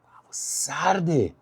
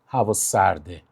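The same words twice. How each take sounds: First: It is said expressively, conveying the cold. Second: It is said flatly, without feeling. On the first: The speaker calls it right. "بذار طرف بفهمه اون سرما رو، اصلا سردش بشه" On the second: The speaker calls it wrong. "سرد و نگو"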